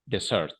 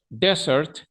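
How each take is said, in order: First: "dessert" as de-SERT, stress on the end; second-syllable stress. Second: "Desert" as DE-sert, first e pitched up; first-syllable stress. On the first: Teacher drilling the contrast, "dessert" stressed on second syllable. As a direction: put the weight on the second e of "dessert". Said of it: "va en la segunda E". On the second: Teacher drilling the contrast, "Desert" stressed on first syllable. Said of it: "el acento va como en la primera E". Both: Shown as a demonstration.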